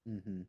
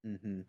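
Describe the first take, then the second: No difference in how they are said.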